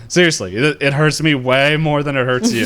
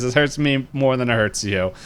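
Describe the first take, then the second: First: Louder, higher, leaning hard on WAY; acted protest with "way" punched; insistent retold plea. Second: Said in the usual way. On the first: Repeated plea while being kicked, intensified.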